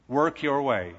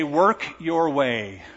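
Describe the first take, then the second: First: Said in the usual way. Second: Drawn out slowly, each word stretched; slow quote. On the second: Retold or imitated. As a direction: preach it slowly as religion's demand. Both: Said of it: "religion will say".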